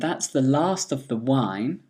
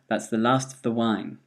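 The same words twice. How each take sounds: First: The word 'of' keeps its full vowel. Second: The word 'of' is reduced to a weak vowel.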